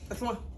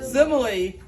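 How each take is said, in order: First: The word is said shortened, like small. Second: The word is said in full, like simile. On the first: The speaker calls it wrong. "I just call it small. Small. I didn't say similar. I said small" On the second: The speaker calls it right. "But it's actually called a what?"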